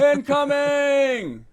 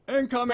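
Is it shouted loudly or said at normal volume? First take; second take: loud; normal. First: It is shouted loudly, as if far away. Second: It is said at a normal volume.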